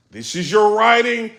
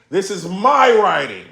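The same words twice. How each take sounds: First: "your writing" left up in the air; contrasting rival's writing. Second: "my" leaned on slowly, then falling; stress on MY. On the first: Battle rapper showing up his opponent, "your" against "my". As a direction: set up "your writing" for the comparison. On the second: Battle rapper showing off his own, stress on "my". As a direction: punch "my" and draw it out. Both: Retold or imitated. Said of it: "he's showing the difference with the writing".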